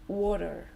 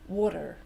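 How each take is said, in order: First: A d-like t, and a sounded final r. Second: The same.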